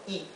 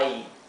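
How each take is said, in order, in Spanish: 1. La vocal se dice corta y relajada. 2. La vocal se dice larga, como un diptongo. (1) "la I del comienzo tiene su sonido corto" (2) "no es I"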